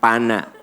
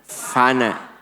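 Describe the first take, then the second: First: The word begins with a p sound. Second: The word begins with an f sound. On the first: The speaker calls it wrong. "Bukan pana" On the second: The speaker calls it right. "F, F, F. Fana"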